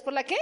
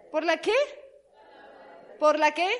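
First: Asking the crowd, rising on qué; first of three rising calls; building call. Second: ¿Por la qué? louder, rising on qué; loud call. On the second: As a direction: push the crowd for the answer. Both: Shown as a demonstration. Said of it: "call-and-response to congregation".

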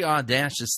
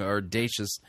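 First: "audacious" said aw-DASH-us; mispronounced word. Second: Said in the usual way. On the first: Shown as a demonstration. Critic bungling the preacher's word, mispronounced. Joke mispronunciation, then corrected.

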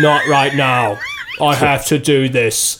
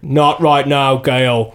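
First: Slow, shouted mock American accent of a British actor; bad American accent, shouted. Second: Bad American accent. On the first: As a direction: drag out "Not right now" and shout it in a clumsy fake American accent. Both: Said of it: "He sounded like".

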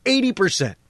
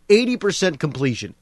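First: "eighty" punched high, falling after; stress on eighty. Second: Said in the usual way. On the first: Real, not acted. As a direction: lean hard on "eighty" in disbelief. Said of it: "repeated for emphasis". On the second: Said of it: "repeats it with emphasis".

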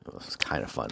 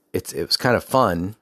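First: Whisper. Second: Said in the usual way. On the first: Shown as a demonstration. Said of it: "repeated after normal take". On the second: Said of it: "repeated in a whisper".

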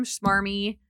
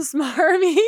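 First: Schmarmy said with a sh sound, like sh-marmy; slip of the tongue. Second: Smarmy said with a clean s, stretched out, laughing, higher and louder; laughing correction. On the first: Mocking a smarmy hotel clerk, tongue slips into schmarmy. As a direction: stumble into schmarmy with an extra sh at the start. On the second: Correcting her own slip, slow laughing smarmy. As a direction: fix it to smarmy, dragging it out through laughter. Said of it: "some schmarmy". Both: Shown as a demonstration.

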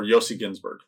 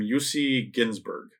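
First: "Yossi" said as YOH-see; YOH-see Ginsburg for "Yossi Ginsburg"; alternative pronunciation. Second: "Yossi" said as YOO-see; YOO-see Ginsburg for "Yossi Ginsburg"; first pronunciation attempt. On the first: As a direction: say Yossi with a long "oh" in the first syllable. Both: Shown as a demonstration. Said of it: "or Yossi Ginsburg".

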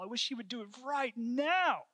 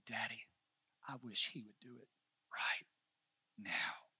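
First: High, rising cry of frustration; pitched-up heartfelt outcry; impassioned longing. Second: Soft, low imitation of a grieving child; subdued retold sorrow, word by word; retold tearful plea. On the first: Real, not acted. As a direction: plead it out, climbing to the last word. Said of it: "that's exactly how I feel". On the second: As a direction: quietly voice a small boy's plea, haltingly. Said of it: "crying as hard as he could".

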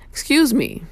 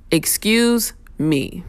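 First: "Excuse me" lifted high and falling, brisk; a quick bright polite ask; higher polite excuse me. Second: "Excuse me" drawn out slowly, polite rise. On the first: Showing riders another polite way to pass. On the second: Showing riders how to ask politely to pass. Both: Shown as a demonstration. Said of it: "two words can get you far in life".

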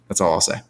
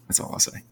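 First: Said in the usual way. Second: Whispered repeat of "That's all I'll say.". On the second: Shown as a demonstration. Echoing his own sign-off to the cohost, whispered. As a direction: breathe the words out with no voice at all.

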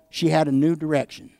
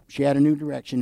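First: "had" leaned on with a falling tune; stress on HAD. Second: "new" leaned on, falling after; stress on NEW. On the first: Preacher to congregation, landing on "had" first. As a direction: hit the word "had" hard, then ease off. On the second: Preacher repeating for the congregation, now stressing "new". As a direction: hit "new" hard, lighter on "had". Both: Shown as a demonstration.

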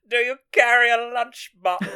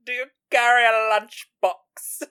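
First: High, loud laughing quote; Chelsea's line, hammed-up and high; mock snooty quip. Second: High, loud, falling quip; mock snooty quip. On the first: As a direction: sneer it through laughter. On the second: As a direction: punch carry high and loud. Repeating the favourite line.

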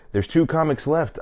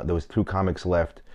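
First: Mimicking the host, pitched higher; imitating the host. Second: Said in the usual way. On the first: Comic retelling how the host introduced the last two comics, pitched higher. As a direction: play the host announcing the lineup, higher. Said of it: "she goes".

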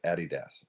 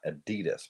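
First: "Adidas" as AD-ee-dahss, falling, softer; first-syllable stress. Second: "Adidas" as uh-DEE-dus, second syllable stressed; usual American pronunciation. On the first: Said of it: "emphasis on the first syllable". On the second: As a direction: put the weight on DEE in "Adidas", rising. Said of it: "not Adidas". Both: Shown as a demonstration.

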